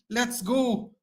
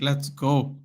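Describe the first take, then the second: First: Much higher, joyful let's go; excited cheer. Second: Said in the usual way. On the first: Real, not acted. Fan cheering the first goal, high joyful cry.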